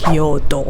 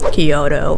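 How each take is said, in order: First: Kyoto is pronounced in the Japanese way. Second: Kyoto is pronounced in an anglicized way. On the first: The speaker calls it right. "It's Kyoto" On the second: The speaker calls it wrong. "don't go with Kyoto"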